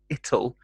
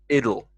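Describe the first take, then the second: First: The middle consonant is a crisp, hard T. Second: The middle consonant is softened to a D. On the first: "the hard T sound" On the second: "is softened to more of a D sound"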